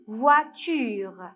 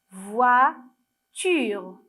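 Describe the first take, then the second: First: Said in the usual way. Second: "voiture" with a long gap between voi and ture; split into syllables. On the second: Shown as a demonstration. Teacher naming the picture for children, "voiture" slowly divided by syllable. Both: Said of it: "quelle est la première syllabe".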